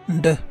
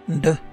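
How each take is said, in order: Both takes have the same delivery.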